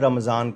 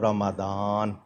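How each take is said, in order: First: The middle consonant is a z sound. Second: The middle consonant is a d sound. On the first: "Urdu में रमज़ान कह ले तो चल जाएगा" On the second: "अरबी में कहेगा तो रमादान"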